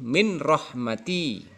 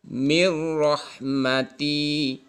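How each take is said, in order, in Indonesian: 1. Bunyi n terdengar sebelum r. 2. N melebur ke dalam r tanpa dengung. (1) "Tidak boleh" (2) "Harus masuk ke dalam ro. Kemudian tanpa dengung"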